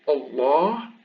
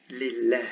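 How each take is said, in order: First: Allah with a dark L and backed "aa"; emphatic lam. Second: Lillah with a light L and fronted "ae"; non-emphatic lam. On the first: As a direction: say Allah with a thick, heavy L. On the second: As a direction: say lillah with a thin, clear L. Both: Shown as a demonstration. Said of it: "you hear the difference".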